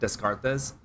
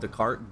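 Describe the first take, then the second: First: The name is said as a misreading. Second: The name is said the standard way. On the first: The speaker calls it wrong. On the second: The speaker calls it right.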